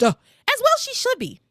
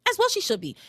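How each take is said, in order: First: Pitched way up, emphatic; high, fired-up agreement. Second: Said in the usual way. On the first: Real, not acted. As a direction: side with her loudly.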